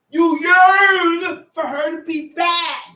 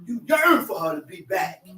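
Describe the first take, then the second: First: Yearn stretched, slow and louder; slow, loud preaching of You yearn for her to be back; stress on yearn. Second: Said in the usual way. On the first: Shown as a demonstration. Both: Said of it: "repeat for emphasis".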